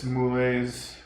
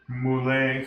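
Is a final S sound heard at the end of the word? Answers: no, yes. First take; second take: yes; no. First: The word ends with an audible S sound. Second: The word ends without any S sound. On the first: The speaker calls it wrong. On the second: The speaker calls it right.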